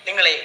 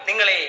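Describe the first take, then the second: The two takes are said the same way.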